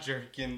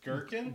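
First: The word begins with a soft j sound. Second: The word begins with a hard g sound. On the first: The speaker calls it wrong. "the word is not Jerkin" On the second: The speaker calls it right. "The word is Gherkin"

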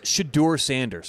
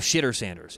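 First: The name is said slowly and carefully. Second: The name is said quickly and run together. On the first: The speaker calls it right. "It's Shedeur Sanders" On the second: The speaker calls it wrong. "Everyone says it too fast"

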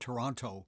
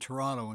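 First: Every sound of the word is pronounced. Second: Some sounds are dropped from the word.

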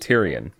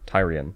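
First: The first syllable does not sound like 'tire'. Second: The first syllable sounds like 'tire'. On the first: This is the name as used in the TV series. "In the series, they call him Tyrion" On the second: This is the name as read in the books. "that's what the city's called. Tyre"

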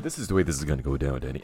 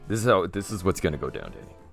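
First: It is said in a put-on voice. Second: It is said in his natural voice.

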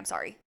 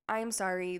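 First: The apology sounds rushed and dismissive. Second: The apology sounds calm and sincere.

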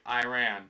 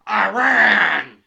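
First: The word is said plainly without extra emphasis. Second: The word is said loudly with strong emphasis. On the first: The speaker calls it right. "You're just like" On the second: The speaker calls it wrong. "you're not"

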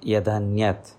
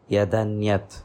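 First: The two words merge into one with a d. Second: The same.

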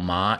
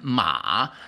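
First: The pitch rises from mid to high. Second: The pitch dips low and then rises. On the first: It means feeling numb. "The second tone ma, feeling numb" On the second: It means a horse. "And ma, the third horse"

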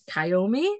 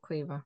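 First: The name is said with three syllables. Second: The name is said with two syllables. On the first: The speaker calls it wrong. "us Brits look at it and go" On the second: The speaker calls it right. "you pronounce it Quiva"

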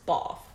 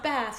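First: Bath is said with a British-style vowel. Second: Bath is said with an American-style vowel. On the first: The speaker calls it right. "it's Bath" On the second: The speaker calls it wrong. "it's not Bath"

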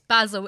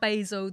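First: The first vowel is short, as in 'bad'. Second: The first vowel is long, as in 'bay'. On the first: The speaker calls it right. "It's Basil" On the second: The speaker calls it wrong. "It's not Basil. There's no magic E in there"

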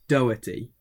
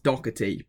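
First: The name has no k sound in the middle. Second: The name has a k sound in the middle. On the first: The speaker calls it right. "There's no C or K in it, so it's Doherty" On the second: The speaker calls it wrong. "I thought it was Doherty, but it's not Doherty because it's not a CK"

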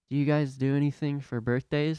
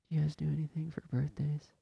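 First: It is said slightly louder than before. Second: It is said very quietly, almost inaudibly.

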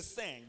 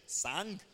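First: The word is said with an American accent. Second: The word is said with a Nigerian accent. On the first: "Americans, they sang" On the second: "I like Nigerian English. We pronounce words the way they are written"

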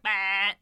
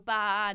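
First: The bleat is made with the tongue out. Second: The bleat is made with a normal mouth. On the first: It imitates a goat. "if you go baa with your tongue out, baa, it's a goat" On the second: It imitates a sheep. "if you go baa normally, it's a sheep"

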